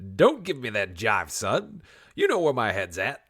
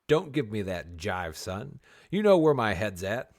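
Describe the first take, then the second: First: It is read in a put-on character voice. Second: It is read in a plain, ordinary voice.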